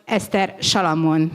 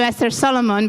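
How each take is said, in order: First: Solomon begins with an sh sound. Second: Solomon begins with a plain s sound. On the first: This is how her name should be said. The speaker calls it right. "the S at the beginning is pronounced as sh" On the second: This is how others usually say her name. The speaker calls it wrong. "I am listening to"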